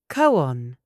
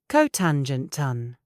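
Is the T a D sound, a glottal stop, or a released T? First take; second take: glottal stop; released T. First: The T is a glottal stop. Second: The T is sharply released. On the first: "British natural ... We use the glottal stop" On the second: "British formal ... We release the T"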